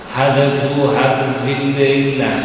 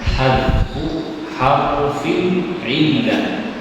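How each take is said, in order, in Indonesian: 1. Frasa itu diucapkan dengan cepat dan tidak jelas. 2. Frasa itu diucapkan dengan pelan dan jelas. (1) "Orang kalau cepat-cepat tidak memberikan harf-harfnya" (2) "yang terakhir ini pelan-pelan"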